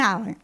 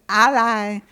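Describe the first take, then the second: First: It sounds like the word in bowling alley. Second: It sounds like the word in alliance. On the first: "alley like bowling alley" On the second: "ally as in alliance"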